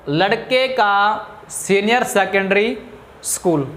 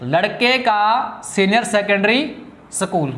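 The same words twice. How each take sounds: First: लड़के का senior secondary school read slowly, stress on लड़के, rising then falling on school; slow careful reading. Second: लड़के का senior secondary school read slowly again, stress on लड़के, falling on school; slow careful reading. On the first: Teacher slowly reads the wrong phrase to students, stressing लड़के. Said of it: "इसका फिर meaning बदल रहा है". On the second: Teacher repeats the phrase slowly to show the changed meaning. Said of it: "इसका मतलब क्या बना?". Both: Shown as a demonstration.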